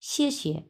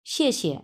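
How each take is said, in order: First: শিয়ে শিয়ে started high, falling steeply, second one clipped light; 高起陡降再轻声; tone demo. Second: শিয়ে শিয়ে, first falling, second short and light; 第四声加轻声; tone demo. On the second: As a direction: fourth tone then neutral tone on শিয়ে শিয়ে. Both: Shown as a demonstration. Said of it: "তাহলে উচ্চারণ আমরা কিভাবে করব?".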